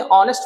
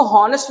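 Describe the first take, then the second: First: ऑनेस्ट starting straight on the vowel; ऑनेस्ट with an open O sound first; silent H in ऑनेस्ट. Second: हॉनेस्ट with an audible H at the start; H sounded in हॉनेस्ट. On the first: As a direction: drop the H, say ऑनेस्ट. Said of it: "ऑनेस्ट पढ़ते हैं". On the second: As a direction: pronounce the first H of हॉनेस्ट. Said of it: "हॉनेस्ट नहीं पढ़ते हैं". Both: Shown as a demonstration.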